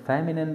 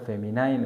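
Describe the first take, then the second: First: The last syllable rhymes with 'tin'. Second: The last syllable rhymes with 'line'. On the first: "صحیح پروناونسیشن فیمینن دی" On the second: "هم ټیک ده"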